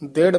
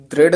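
First: ਦ੍ਰਿੜ with a clear dental d to start; teacher models ਦ੍ਰਿੜ carefully; correct pronunciation. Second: ਦ੍ਰਿੜ starting on an r sound, dropping the d; teacher shows the mistake in ਦ੍ਰਿੜ; wrong pronunciation. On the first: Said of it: "ਦ੍ਰਿੜ ਪਾਠ ਹੈ". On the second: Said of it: "ਨਹੀਂ ਕਹਿਣਾ". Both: Shown as a demonstration.

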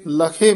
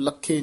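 First: ਲਖੇ with a light single kh; loose, unpressed. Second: ਲਖੇ as "lakkhe", kh doubled; tightly doubled. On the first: Teacher correcting the word, ਲਖੇ said loosely. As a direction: say ਲਖੇ loosely, kh not doubled. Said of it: "ਪੋਲਾ ਬੋਲਣਾ". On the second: Teacher showing the mistake, ਲਖੇ with doubled kh. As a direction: press the kh hard in ਲਖੇ. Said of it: "ਇਹਨੂੰ ਲਖੇ ਨਹੀਂ ਕਹਿਣਾ". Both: Shown as a demonstration.

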